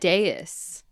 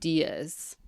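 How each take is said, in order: First: The word sounds like two syllables, 'day-us'. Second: The word sounds like one syllable, like 'days'. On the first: The speaker calls it right. "No, it's" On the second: The speaker calls it wrong. "You keep seeing Diaz"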